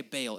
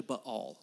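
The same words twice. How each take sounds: First: "Baal" said as BAY-ul; common Anglicized pronunciation. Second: "Baal" as buh-ALL, stressed second syllable; correct pronunciation. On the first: Preacher shows congregation the usual habit, "Baal" pronounced BAY-ul. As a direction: say "Baal" like "bail". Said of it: "We say Baal". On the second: Preacher teaches congregation the name, "Baal" pronounced buh-ALL. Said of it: "It's actually Baal". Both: Shown as a demonstration.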